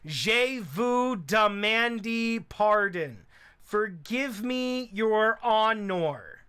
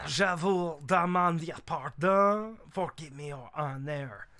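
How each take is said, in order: First: It is said without a French accent. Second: It is said with a French accent. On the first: The speaker calls it wrong. "imagine if I voice acted this guy by doing" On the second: The speaker calls it right. "I'm just gonna have to live with offending French people"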